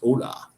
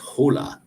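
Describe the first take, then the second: First: The word starts with a vowel, no H sound. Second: The word starts with an audible H sound. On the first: "they don't say the H in front. It's just hola" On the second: "otherwise, it's hola"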